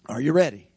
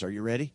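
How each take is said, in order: First: Louder call to the crowd. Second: Said in the usual way. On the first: Shown as a demonstration. Preacher to congregation, louder second asking. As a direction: push it out louder, falling at the end.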